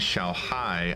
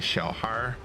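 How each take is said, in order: First: The word ends without an r sound. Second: The word ends with an r sound. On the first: "Xiao Hai is technically how it, it's how it is written" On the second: "Xiao Har is like Beijing dialects, northern dialects"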